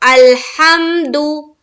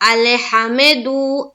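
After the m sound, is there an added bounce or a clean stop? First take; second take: clean stop; added bounce. First: The m sound stops cleanly with no bounce. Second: The m sound is released with an added bounce. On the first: The speaker calls it right. "वहां भी आवाज रुक जानी चाहिए" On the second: The speaker calls it wrong. "वो कलकला हो जा रहा है"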